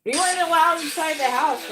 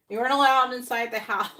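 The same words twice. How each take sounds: First: High, loud, gleeful outburst; loud exclaim. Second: Laughing through the words, high and loud. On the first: Echoing the clip's line to her viewers, loud and high. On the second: Repeating the clip's joke to viewers, laughing. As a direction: crack up while repeating it. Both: Real, not acted.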